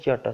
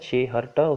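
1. ਦੋਵੇਂ ਸ਼ਬਦ ਮਿਲ ਕੇ ਇੱਕ ਛੋਟਾ ਸ਼ਬਦ ਬਣ ਜਾਂਦਾ ਹੈ। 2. ਦੋਵੇਂ ਸ਼ਬਦ ਪੂਰੇ ਅਤੇ ਵੱਖ-ਵੱਖ ਬੋਲੇ ਜਾਂਦੇ ਹਨ। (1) "ਪਰ ਇਸ ਨੂੰ ਬੋਲਿਆ ਜਾਂਦਾ ਛਿਆਟਾ ਸਾਹਿਬ, ਉਧਰਲੇ ਲੋਕ ਇਸੇ ਤਰ੍ਹਾਂ ਹੀ ਬੋਲਦੇ ਆ" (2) "ਪਰ ਇਸ ਨੂੰ ਇਸ ਤਰ੍ਹਾਂ ਨਹੀਂ ਬੋਲਿਆ ਜਾਂਦਾ"

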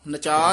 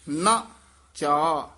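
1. ਦੋਵੇਂ ਅੱਖਰ ਜੋੜ ਕੇ ਇੱਕ ਵਾਂਗ ਬੋਲੇ ਗਏ ਹਨ। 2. ਦੋਵੇਂ ਅੱਖਰ ਵੱਖ-ਵੱਖ ਸ਼ਬਦਾਂ ਵਾਂਗ ਬੋਲੇ ਗਏ ਹਨ। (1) "ਨਚਾ ਨਹੀਂ ਕਹਿ ਦੇਣਾ" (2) "ਤਰਕ ਪਦ ਤੇ ਠਹਿਰਾ ਦੇ ਦੇਣਾ"

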